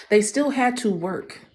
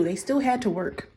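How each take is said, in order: First: "They still had to work." slow and firm with weight on still; emphatic repeat. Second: Said in the usual way. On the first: Shown as a demonstration. Preacher slowly driving home "They still had to work.".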